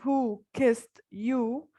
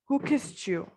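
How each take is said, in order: First: The t and y sounds stay separate. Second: The t and y merge into ch. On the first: "instead of" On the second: "you can say"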